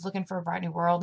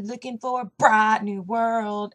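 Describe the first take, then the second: First: Said in the usual way. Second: Slow, louder imitated country twang. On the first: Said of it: "she says ... in the song". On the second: Child copying a country singer's lyric, exaggerated country accent. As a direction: draw it out in a thick country accent. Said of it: "sings it in the perfect country accent, like [name]".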